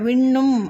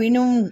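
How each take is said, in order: First: The middle n sound is held long. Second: The middle n sound is short. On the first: The speaker calls it right. "விண்ணும் அப்படின்னு தான்" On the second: The speaker calls it wrong. "வினும் அப்படின்னு படிக்கக்கூடாது"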